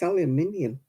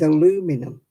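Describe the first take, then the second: First: The word is said with five syllables. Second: The word is said with four syllables. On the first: The speaker calls it right. "It's aluminium" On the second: The speaker calls it wrong.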